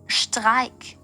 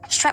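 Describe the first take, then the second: First: The word is said with a German pronunciation. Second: The word is said with an English pronunciation. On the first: A German listener understands it. The speaker calls it right. "now it makes sense" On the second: A German listener does not understand it. The speaker calls it wrong. "What the fuck is a strike?"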